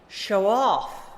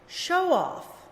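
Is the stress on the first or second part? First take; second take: second; first. First: The stress is on the second part. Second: The stress is on the first part. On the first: It is used as a verb. "the opposite" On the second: It is used as a noun. "read the nouns with the stress on the first syllable"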